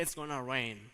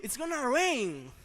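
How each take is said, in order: First: Said in the usual way. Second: High, loud, drawn-out RAIN; triumphant forecast. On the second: Acted. Geographer announcing tomorrow's weather, triumphant. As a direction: proclaim "rain" slowly at full voice. Climax of mock forecast, later said plainly.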